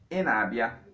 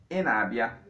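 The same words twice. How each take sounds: First: It has the tone pattern of a statement. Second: The same.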